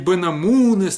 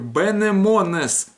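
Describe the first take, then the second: First: The vowels are pronounced as 'a' and 'u'. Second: The vowels are pronounced as 'e' and 'o'. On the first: The speaker calls it wrong. "это не бенамунес никакой" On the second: The speaker calls it right. "Вот так вот произносится"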